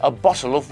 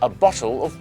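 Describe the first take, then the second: The two takes are said the same way.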